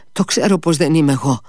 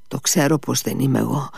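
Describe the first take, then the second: First: Faster, louder, rattled repeat; panicked stammer; stammering in fear. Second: Said in the usual way. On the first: A narrator's reading. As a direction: blurt it out, shaken. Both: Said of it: "τράβλησε".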